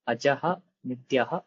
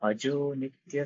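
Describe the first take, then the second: First: The first word ends in ah, separate. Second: The first word ends in o, joined. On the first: "अत्र पदच्छेदः" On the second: "विसर्गस्य उत्त्वे अ, गुणसन्धिः"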